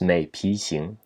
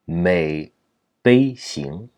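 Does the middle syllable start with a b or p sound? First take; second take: p; b. First: The middle syllable is said as pi. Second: The middle syllable is said as bei. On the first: It is the most common reading today. "perhaps the most common uh, pronunciation today, 皮 or 批" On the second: It is the dictionary reading for a pond or lake. "the proper pronunciation in this case for the signification should actually be 美悲"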